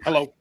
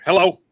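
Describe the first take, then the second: First: Lightly imitated ordinary hello; just pick up the phone normally; plain phone greeting. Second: Higher, louder mock phone hello; imitated phone greeting. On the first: Guy answering the host's call, plain ordinary hello. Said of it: "He was just like". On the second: Guy answering the host's call, mock plain hello. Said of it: "he answered the phone like".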